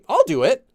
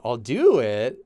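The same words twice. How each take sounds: First: It sounds willing, with an up-and-down tune. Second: It sounds reluctant and unwilling. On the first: The speaker will gladly take care of it. "you have that up and down, which implies that you're doing it like you'll take care of it" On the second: The speaker does not want to do it. "You're like, you don't want to"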